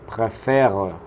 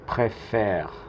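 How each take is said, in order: First: The final e is pronounced as a vowel. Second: The final e is silent after the è. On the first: The speaker calls it wrong. "como pronunciando que la última E es la última que se pronuncia" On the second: The speaker calls it right. "la última en pronunciarse es la que tiene este acento grave"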